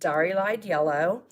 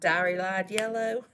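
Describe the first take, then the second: First: It is said in a plain, neutral accent. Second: It is said in a Southern American accent.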